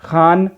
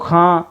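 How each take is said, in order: First: The ending is a full n consonant. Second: The ending is only a nasal vowel. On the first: "यहाँ पूरी आवाज़ आ रही है" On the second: "यहाँ पर भी नून की आवाज़ मुकम्मल तौर से नहीं ज़ाहिर हो रही"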